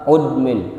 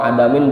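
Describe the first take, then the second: First: The word starts with a 'u' vowel. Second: The word starts with an 'a' vowel. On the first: "Mentang-mentang sini ada domah tadi baca udmin boleh" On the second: "adamin lebih enak"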